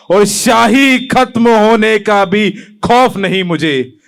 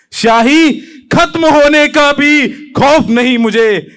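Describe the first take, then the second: First: Slow, spaced-out declamation; measured poem recitation. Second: Higher, ringing repeat of a verse; heightened poem recitation. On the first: Poet vowing he has no fear, measured. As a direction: draw the line out deliberately. First take of repeated verse. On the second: Poet vowing he has no fear, intensified. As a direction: lift the pitch and proclaim it. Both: Acted.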